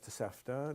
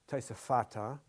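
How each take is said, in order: First: No vowel is heard between the f and t. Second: A vowel is heard between the f and t. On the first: This is the common yeshiva form. The speaker calls it wrong. "there's actually no such word as Tosefta" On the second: This is the actual Hebrew form. The speaker calls it right. "The actual word is"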